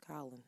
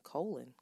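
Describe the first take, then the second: First: First syllable of "Colin" rhymes with doll; corrected name. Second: First syllable of "Colin" rhymes with coal; mispronounced name. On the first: Host correcting her slip, name said quietly as COLL-in. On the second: Host owning up to her slip, name said as COLE-in. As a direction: say "Colin" with a long O, like "colon". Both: Shown as a demonstration. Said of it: "I s-, called him Colin".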